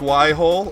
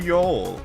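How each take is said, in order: First: The word is said as two syllables. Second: The word is said as one syllable. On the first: This is the name other channels use. "other channels call them Y holes" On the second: This follows how the word is spelled. "which would be pronounced as Yole"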